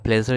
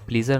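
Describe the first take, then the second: First: The first vowel is a short e sound. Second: The first vowel is a long ee sound. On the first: The speaker calls it right. "बल्कि प्लेजर इसे पढ़ा जाता है" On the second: The speaker calls it wrong. "इसे प्लीज़र नहीं"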